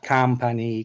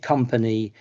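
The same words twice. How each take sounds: First: The first vowel is an open 'a' sound. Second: The first vowel is a short 'uh' sound. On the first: The speaker calls it wrong. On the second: The speaker calls it right. "you want people to say"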